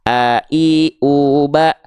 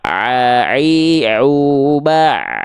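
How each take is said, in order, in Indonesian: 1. Dimulai dengan hentian di pita suara. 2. Dimulai dengan tekanan di tengah tenggorokan. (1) "Kalau terlalu ke bawah ke pita suara di sini ini hamzah" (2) "Ain itu di sini"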